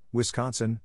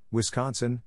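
Both takes have the same delivery.

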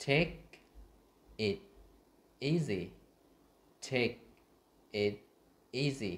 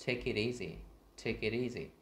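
First: "take it easy" one word at a time, long pauses; slow word-by-word model of "take it easy"; words separated. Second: "take it easy" run together as "ta-ki-teasy"; no gaps in "take it easy", consonants carried over; quick linked sounds. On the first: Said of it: "đọc tách ra". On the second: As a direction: link "take it easy" into one smooth word. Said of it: "đọc nhanh, nối cái âm lại". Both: Shown as a demonstration.

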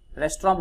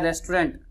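First: "रेस्टोरेंट" said as "restra", no final T; everyday Hindi pronunciation. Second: "रेस्टोरेंट" with the final "nt" sounded; English pronunciation. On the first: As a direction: end "रेस्टोरेंट" on an open "raa" sound. (आम बोलचाल में "रेस्टोरेंट" को "रेस्ट्रां" बोलना) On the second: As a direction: say "रेस्टोरेंट" ending in a clear N and T. (अंग्रेज़ी उच्चारण, "रेस्टोरेंट" के अंत में "ंट" साफ़) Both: Shown as a demonstration. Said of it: "बोलते हैं इसको".

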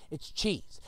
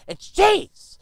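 First: Said in the usual way. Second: Loud, high outrage on cheese; indignant. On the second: Shown as a demonstration. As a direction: spit out cheese in disgust. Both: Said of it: "What do we get?".

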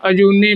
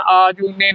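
First: ਅਜੂਨੀ as "a-joonee", short a; short first vowel. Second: ਆਜੂਨੀ as "aa-joonee"; wrong long vowel. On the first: Teacher showing learners the right reading, short-vowel pronunciation. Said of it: "ਐੜੇ ਨੂੰ ਕੰਨਾ ਨਹੀਂ ਲਾਉਣਾ". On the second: Teacher warning learners of the mistake, long-vowel mispronunciation. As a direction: lengthen the opening of ਆਜੂਨੀ. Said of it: "ਨਹੀਂ ਬੋਲਣਾ". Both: Shown as a demonstration.

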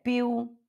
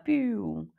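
First: "Più" higher, with a firm final u; open sound. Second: Softer, drooping, drawn-out "Più"; dispirited. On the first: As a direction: say "Più" open and stressed at the end. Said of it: "Mas tenta falar aberto". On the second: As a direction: let "Più" sag, as if discouraged. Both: Shown as a demonstration.

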